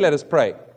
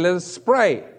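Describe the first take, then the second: First: The s of 'us' stays apart from 'pray'. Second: The s of 'us' runs into 'pray' as 'spray'. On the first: The speaker calls it right. "sometimes we don't say" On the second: The speaker calls it wrong. "They say"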